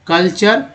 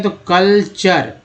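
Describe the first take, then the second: First: कल्चर said again at normal pace, rising at the end; model word repeat. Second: कल्चर drawn out slowly with a falling tune; slow model word. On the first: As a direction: repeat कल्चर, ending upward. (कल्चर फिर से, उठते सुर में) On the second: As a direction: say कल्चर slowly for students to copy. (कल्चर धीरे और साफ़) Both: Shown as a demonstration. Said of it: "सी ओ एल को कल बोलते हैं".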